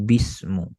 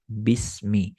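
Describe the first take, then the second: First: The word ends with the vowel u. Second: The word ends with the vowel i. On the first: The speaker calls it wrong. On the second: The speaker calls it right. "Sama kayak kita baca bismillah"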